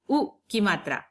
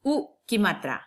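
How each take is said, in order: Both takes have the same delivery.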